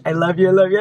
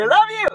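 First: Said in the usual way. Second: Much higher squealed love you; excited squeal. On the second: Real, not acted. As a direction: squeal it at the end. Thanks the sender.

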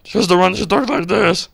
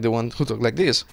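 First: High-pitched, louder Satan alter ego; Satan personality. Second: Said in the usual way. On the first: Shown as a demonstration. Streamer demonstrating their second personality, high Satan voice. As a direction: put on a high demon voice for your evil side. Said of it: "like, fucking Satan". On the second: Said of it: "who I normally am".

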